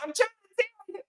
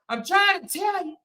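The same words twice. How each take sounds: First: It is said in a changed, put-on voice. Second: It is said in a loud, yelling voice. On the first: He is no longer hiding how he really sounds. "this is what he's gonna start sounding like" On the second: He is covering up how he really sounds. "he talk loud now"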